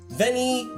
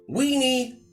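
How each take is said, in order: First: The word begins with a V sound. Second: The word begins with a W sound. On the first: "which the Romans, who were all very well educated, construed correctly" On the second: "who of course still used the old pronunciation"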